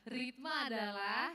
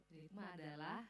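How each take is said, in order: First: Slow, stretched out with a rising end, coaxing an answer; drawn-out prompt. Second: Soft, slow, laughing start of the answer; laughing prompt. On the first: Teacher coaxing students to finish the sentence, drawn out. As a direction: stretch adalah so they fill in the rest. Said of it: "ayo coba". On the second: Teacher waiting on silent students, laughing softly. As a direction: chuckle through it, waiting for the students. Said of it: "kalau sunyi senyap malam kudus begini". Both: Shown as a demonstration.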